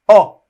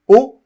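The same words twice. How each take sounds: First: The vowel is open, mouth more open. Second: The vowel is closed, mouth less open. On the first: "contrairement au O ouvert, O, où la bouche est plus ouverte" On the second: "Le son O fermé. Donc la bouche est plus fermée"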